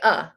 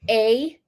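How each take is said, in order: First: The word is said with a weak schwa vowel. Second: The word is said with a full 'ay' vowel. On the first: "It's the schwa sound" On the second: "conversationally you might say a"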